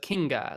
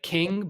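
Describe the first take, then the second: First: The word ends with an added 'a' vowel. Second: The word ends plainly on the consonant. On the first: "but Kinga, like a like he's a you know Italian" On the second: "Like king"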